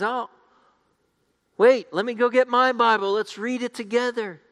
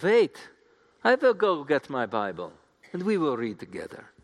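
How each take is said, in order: First: High, lightly put-on Scandinavian accent. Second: Put-on German accent, high "wait" then settling; best German accent. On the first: Scandinavian man asking to join Bible reading, light Scandinavian accent. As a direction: play an eager Scandinavian, pitched up high. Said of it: "another Scandinavian man notices them". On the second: German woman asking to read the Bible together, German accent. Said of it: "That's my best German accent".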